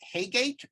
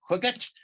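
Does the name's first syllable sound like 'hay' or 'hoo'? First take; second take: hay; hoo. First: The first syllable sounds like 'hay'. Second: The first syllable sounds like 'hoo'. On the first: This is the speaker's usual pronunciation. "I always pronounced it Haygate" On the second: This is how the person close to the author said it. "he pronounced it something like Hooget"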